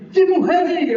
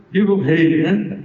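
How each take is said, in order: First: Bright, much higher cheer for the king; joyful acclaim. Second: Lower, reluctant "Viva o rei" said without joy; grudging inside. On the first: Uzai greeting Absalão as king, joyful high cheer. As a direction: hail the new king with open joy. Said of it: "deve ter falado assim com alegria". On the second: Uzai's hidden feeling toward Absalão, lower grudging hail. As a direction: hail him while not meaning it. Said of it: "por dentro, né, podia ser que ele tivesse assim". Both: Acted.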